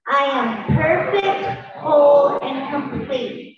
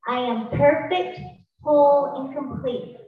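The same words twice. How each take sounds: First: Slow, with whole shouted out; slow loud affirmation. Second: Slow, with a big lift on whole; repeated affirmation. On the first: Leading the audience in a chant, slow with whole shouted. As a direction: lead the crowd, leaning on whole. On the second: Repeating the affirmation for the crowd, whole punched loud. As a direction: chant it back with whole punched. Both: Shown as a demonstration. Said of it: "Say it with me".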